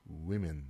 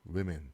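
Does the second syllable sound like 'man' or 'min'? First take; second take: min; min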